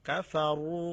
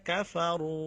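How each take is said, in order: The two takes are said the same way.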